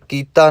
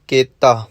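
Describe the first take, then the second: First: The first vowel sounds like 'ee'. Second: The first vowel sounds like 'ay'. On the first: The speaker calls it wrong. "ਇੱਥੇ ਕੀਤਾ ਨਹੀਂ ਕਹਿਣਾ" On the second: The speaker calls it right. "ਕੱਕੇ ਨੂੰ ਲਾਂ ਲੱਗੀ ਹੋਈ ਹੈ"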